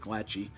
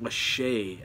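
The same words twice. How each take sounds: First: The surname is pronounced the way it is spelled. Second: The surname is pronounced unlike its spelling. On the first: This is the speaker's own way of saying it. The speaker calls it right. "I call him [name]" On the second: This is how the name is officially said. The speaker calls it wrong. "how did you get [name] out of E Y A?"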